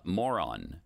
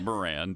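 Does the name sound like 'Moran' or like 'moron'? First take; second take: moron; Moran. First: The name is said to sound like 'moron'. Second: The name is said in its usual form, 'Moran'. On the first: The speaker calls it wrong. "I'm going to pronounce it moron in this particular case" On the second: The speaker calls it right. "It's Moran"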